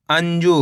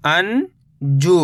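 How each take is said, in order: First: Said in the usual way. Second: अंजू as long rising "an", pause, "joo"; split syllables. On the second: Shown as a demonstration. Teacher breaking down अंजू for learners, split syllables. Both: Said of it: "तो मिलके बन जाएगा".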